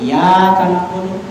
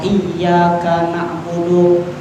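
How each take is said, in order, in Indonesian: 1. Bunyi y pada kata pertama tunggal. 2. Bunyi y pada kata pertama dobel. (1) "Ketika tidak menggunakan tasdid" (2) "harusnya menggunakan tasdid"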